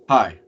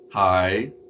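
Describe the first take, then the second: First: The pitch stays level on the syllable. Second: The pitch rises on the syllable. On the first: "a flat tone" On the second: "an up tone"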